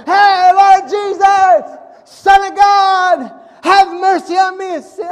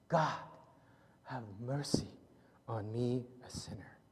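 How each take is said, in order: First: Slow, drawn-out yell, high and loud; desperate shout. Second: Soft, low and fading to a whisper; humble plea. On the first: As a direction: call out with everything you have. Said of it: "they shouted all the louder". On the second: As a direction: pray it with head bowed in shame. Tax collector, head down, pleading. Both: Retold or imitated.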